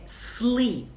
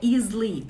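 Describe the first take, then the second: First: The word starts directly with the s sound. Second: An extra vowel sound comes before the s. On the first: The speaker calls it right. "é sleep" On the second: The speaker calls it wrong. "Dormir não é sleep"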